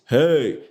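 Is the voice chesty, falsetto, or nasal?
chesty. A full, low chest voice is used. "the chest voice"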